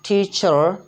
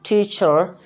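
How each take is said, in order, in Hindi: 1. अंतिम r हल्का सा उच्चारित होता है। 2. अंतिम r हल्का सा उच्चारित होता है।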